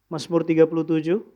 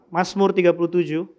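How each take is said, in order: Both takes have the same delivery.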